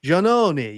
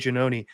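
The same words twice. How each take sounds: First: The name is said with an Italian pronunciation. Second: The name is said with an American pronunciation. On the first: The speaker calls it right. "that's not how you say it" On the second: The speaker calls it wrong. "I'm from America"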